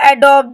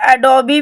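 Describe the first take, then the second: First: The word ends on the b consonant. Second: The word ends with a final ee vowel. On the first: "या एडोब, दोनों word आपके ठीक है" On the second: "एडोबी भी बोल सकते हैं"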